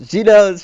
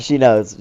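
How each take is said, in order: First: The second knows higher and louder, rising alarm; seeing the clerk is onto them, louder and higher in panic; panicked repeat. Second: Said in the usual way. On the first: Retold or imitated. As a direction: say knows again, now alarmed.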